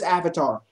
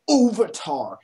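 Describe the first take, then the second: First: "Avatar" with a short "a" as in "cat"; usual Avatar pronunciation. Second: "Ovatar" with an "o" up front; mispronounced Avatar. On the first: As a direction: say "Avatar" as "AV-uh-tar". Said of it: "Everyone says Avatar". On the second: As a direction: say "Ovatar" as "OH-vuh-tar". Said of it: "No one says Ovatar". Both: Shown as a demonstration.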